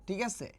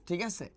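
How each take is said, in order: The two takes are said the same way.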